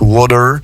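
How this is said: The middle T sounds like a soft D. "transformer un T qui se trouverait entre deux voyelles par un de, donc water"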